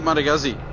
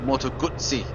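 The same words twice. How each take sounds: First: The name is pronounced the English way. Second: The name is pronounced the Italian way. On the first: The speaker calls it wrong. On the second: The speaker calls it right.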